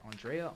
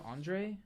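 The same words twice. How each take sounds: First: "Andrea" said as an-DRAY-uh with a final uh, rising like a question; "Andrea" tried out as a question, three syllables ending in -uh; unsure name check. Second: "Andre" said as an-DRAY with no final vowel, rising high; "Andre" checked aloud, two syllables and high rising; corrected name. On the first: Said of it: "am I saying his name right?". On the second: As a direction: try "Andre" in two syllables, a questioning lift at the end. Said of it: "I think it's Andre". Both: Shown as a demonstration.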